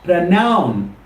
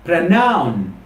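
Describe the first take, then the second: The two takes are said the same way.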